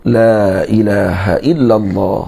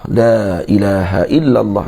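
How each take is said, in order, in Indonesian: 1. Vokal pada kata pertama dibaca pendek. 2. Vokal pada kata pertama dibaca pendek.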